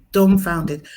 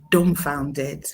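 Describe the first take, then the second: First: Dumbfounded said again louder with a firm fall; stunned, louder echo of dumbfounded; louder emphatic repeat. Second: Said in the usual way. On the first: Real, not acted. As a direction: hit dumbfounded hard the second time.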